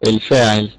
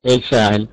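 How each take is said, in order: Both takes have the same delivery.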